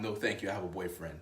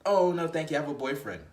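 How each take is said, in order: First: Low, softer dismissive retelling; quieter mock refusal. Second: Brighter, louder mock refusal; a quick chirpy no thanks; woman politely refusing. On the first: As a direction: toss it off as a trivial line. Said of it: "what a huge mistake for her to say". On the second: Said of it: "And then she says".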